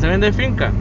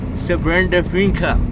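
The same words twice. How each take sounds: First: It is said with a plain Spanish accent. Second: It is said with an English accent.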